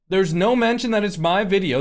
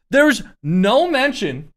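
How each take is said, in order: First: Said in the usual way. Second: There's no mention, slow, loud and stressed; emphatic, slow. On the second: Real, not acted. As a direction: lean hard on There's no mention. Repeats phrase with emphasis.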